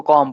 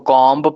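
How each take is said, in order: First: कॉम ending on m, no b; कॉम pronounced kɔm; comb with silent b. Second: कॉम्ब with the final b said; कॉम्ब pronounced kɔmb; comb with b sounded. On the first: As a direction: drop the b in कॉम. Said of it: "कोई इसको कॉम पढ़ता है". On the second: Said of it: "कोई इसको कॉम्ब पढ़ता है". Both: Shown as a demonstration.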